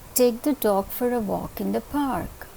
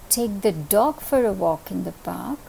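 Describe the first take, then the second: First: The word park carries the main stress. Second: The word dog carries the main stress. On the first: It must be the park and nowhere else. "If I place the stress on the word park" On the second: It must be the dog and no other pet. "If I place the accent on dog"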